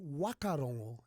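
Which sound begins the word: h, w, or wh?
w. The word begins with a plain w sound. This is how west coast speakers say it. "the western coast. It'll be wakarongo"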